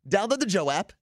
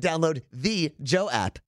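First: The sounds are relaxed and loosely run together. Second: Every sound is crisply and carefully enunciated. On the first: The speaker calls it right. "I think I sound more natural than you two" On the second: The speaker calls it wrong. "you like enunciate everything"

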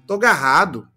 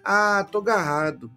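First: It sounds a bit more excited and eager. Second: It sounds slightly sad and reluctant.

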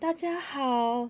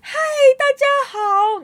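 First: It is said very softly. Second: It is said very loudly.

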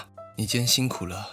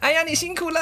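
First: It is said in a heavy, weary tone. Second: It is said in a bright, happy tone.

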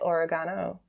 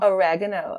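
First: It is said the speakers' own non-American way. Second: It is said the American way. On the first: "and we say oregano" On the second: "Americans say oregano"

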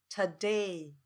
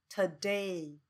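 The two takes are said the same way.

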